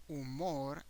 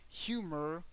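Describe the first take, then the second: First: "humor" as oo-MOR, silent h; Spanish "humor", last syllable stressed; Spanish pronunciation. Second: "humor" as HYOO-mer, rising at the end; English "humor", first syllable stressed; English pronunciation. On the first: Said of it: "the H doesn't have a sound at all". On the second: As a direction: say "humor" with the h sounded. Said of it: "the pronunciation is different". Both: Shown as a demonstration.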